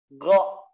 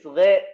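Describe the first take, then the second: First: The syllable sounds thick with a dark vowel. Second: The syllable sounds thin with a light vowel. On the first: The speaker calls it right. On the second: The speaker calls it wrong.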